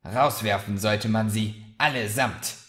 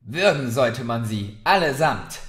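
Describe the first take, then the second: First: Understated angry grumble; growling to herself. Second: Louder, rising to an angry cry on allesamt; fed-up barmaid snapping aloud; furious outburst. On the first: A narrator's reading. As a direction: mutter it grimly to herself. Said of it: "knurrte Murdra in sich hinein". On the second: Acted. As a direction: spit it out at the whole tavern. Barmaid cursing the rowdy guests.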